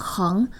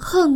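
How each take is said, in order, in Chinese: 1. 这个音节读升调。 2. 这个音节读降调。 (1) "念作二声横" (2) "而不是四声横哦"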